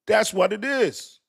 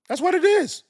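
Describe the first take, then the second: First: Slower, firm restatement; slow emphatic. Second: Much higher, louder exclamation; high exclaim. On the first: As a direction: lean on it slowly. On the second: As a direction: throw it up high and loud. Exclaimed, then restated. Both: Real, not acted.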